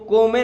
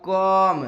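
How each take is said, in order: First: The word is said as two syllables, ko-me. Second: The word is said as one syllable, kom. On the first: The speaker calls it wrong. "इसको को में नहीं पढ़ेंगे" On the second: The speaker calls it right. "इसको हम पढ़ेंगे क आम कॉम"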